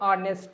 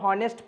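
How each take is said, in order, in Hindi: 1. शब्द की शुरुआत स्वर की आवाज़ से होती है। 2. शब्द की शुरुआत h की आवाज़ से होती है। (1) "लेकिन ये है ऑनेस्ट" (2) "बहुत बच्चे इसको हॉनेस्ट पढ़ देते हैं"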